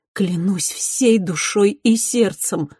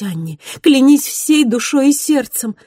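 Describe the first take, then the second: First: Tender vow, slow. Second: Passionate vow. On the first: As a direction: swear it gently and slowly. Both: Acted. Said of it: "проливая слёзы".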